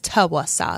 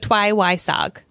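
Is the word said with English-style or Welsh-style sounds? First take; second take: Welsh-style; English-style. First: The word is said with Welsh-style sounds. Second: The word is said with English-style sounds. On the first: This is the actual pronunciation. The speaker calls it right. "but it's Tywysog" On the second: This is a naive guess at the pronunciation. The speaker calls it wrong. "I would say Tywysog"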